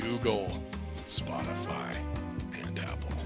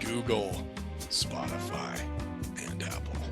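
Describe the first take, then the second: First: The voice drops an octave, deep. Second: The voice drops an octave, deep.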